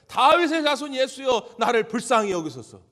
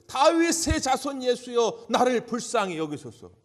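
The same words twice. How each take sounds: First: Full-voiced plea for mercy; even louder cry. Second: High, loud, slow plea to be heard; loud, drawn-out cry for mercy; desperate crying out. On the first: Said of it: "더 크게 소리 지르는 거예요". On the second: Retold or imitated. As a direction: call out across a crowd to someone you cannot see. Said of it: "소리를 고래고래 지르는 거예요".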